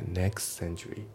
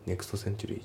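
First: Slow "next century" as "neks-century"; dropped T. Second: "next century" as "nekusuto century"; T pronounced. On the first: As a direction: slide from the S of "next" straight into "century". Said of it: "nextのTが抜けますね". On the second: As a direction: sound out "to" at the end of "next" in "next century". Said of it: "じゃなくて". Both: Shown as a demonstration.

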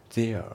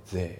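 First: THERE with an audible R-like tail, "zee-ar"; R sounded. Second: THERE cut to "theh"; no R at the end of THERE; British silent R. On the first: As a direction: let the end of THERE ring out. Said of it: "Thereじゃなくて". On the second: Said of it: "響かないですね". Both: Shown as a demonstration.

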